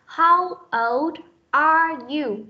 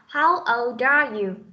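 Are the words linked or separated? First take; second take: separated; linked. First: Each word is said separately, without linking. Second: The words run together, with the sounds linked. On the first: "đọc tách riêng ra không nối âm" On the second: "khi nối âm chúng ta đọc là"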